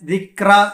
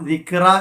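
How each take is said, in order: First: The k sound passes smoothly without a bounce. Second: The k sound is bounced with a clear release. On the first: The speaker calls it right. "ദിക്ര എന്ന് പറഞ്ഞു പോണം" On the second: The speaker calls it wrong. "ദിക്ര എന്ന് പറയരുത്"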